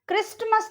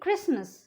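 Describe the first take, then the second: First: The t sound is pronounced. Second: The t sound is left out. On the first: The speaker calls it wrong. "क्रिस्टमस नहीं बोलेंगे" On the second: The speaker calls it right. "उसको हम बोलेंगे क्रिसमस"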